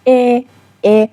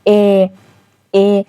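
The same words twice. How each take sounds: First: "ا" sounded inside the mouth, out of the throat; mouth-made vowel. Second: "ا" sounded slightly from the back of the throat; throaty vowel. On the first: Teacher contrasting the previous letter "ا", made inside the mouth. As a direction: say "ا" forward, within the mouth. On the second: Teacher showing learners the letter "ا", made slightly in the throat. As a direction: say "ا" a little down in the throat. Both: Shown as a demonstration.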